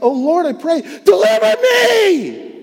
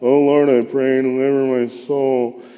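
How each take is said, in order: First: It is cried out with desperate passion. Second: It is read flatly, without feeling.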